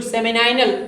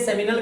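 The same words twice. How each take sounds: First: सेमिनाइनल with "नाइ" rhyming with "eye"; long "-nai-" pronunciation. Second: सेमिनल with a plain short "-nal" at the end; short-ending pronunciation. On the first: Teacher telling students how others say it, सेमिनाइनल with "-nai-". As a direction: say सेमिनाइनल as semi-NIGH-nal. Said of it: "कुछ लोग सेमिनाइनल भी कहलाते हैं". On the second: Teacher telling students how some say it, सेमिनल with short "-nal". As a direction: keep the last syllable of सेमिनल short. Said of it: "कुछ लोग इसे सेमिनल कहेंगे". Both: Shown as a demonstration.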